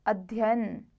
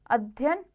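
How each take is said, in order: First: अध्ययन drawn out, ending falling; correct form. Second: अध्ययन shortened, ending lifted; wrong form. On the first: Teacher corrects it, अध्ययन in full. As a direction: say अध्ययन as adhyayan. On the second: Teacher shows the error, अध्ययन shortened. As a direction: say अध्ययन as adhyan. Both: Shown as a demonstration. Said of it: "व्यंजन द्वितीय संबंधी".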